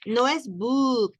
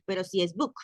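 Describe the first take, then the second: First: Book said with a short clipped vowel; wrong short book. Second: Book with a longer oo vowel; right long book. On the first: Teacher showing the wrong book to students. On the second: Teacher showing the correct book to students. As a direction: stretch the vowel in book a little. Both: Shown as a demonstration.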